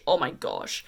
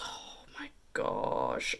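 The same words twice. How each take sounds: First: Said in the usual way. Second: Breathless whispered gush, slow; awed whisper. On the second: Real, not acted. Vlogger swooning over a palette's metallic row, in a slow awed whisper. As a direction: whisper it in awe, drawn out.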